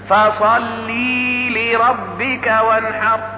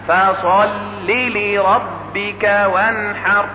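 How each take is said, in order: First: A long i vowel follows the l. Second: A short i vowel follows the l. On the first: The speaker calls it wrong. "يزيد أحرفا" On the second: The speaker calls it right. "يبنى على حذف حرف العلة"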